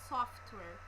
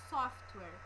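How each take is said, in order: No difference in how they are said.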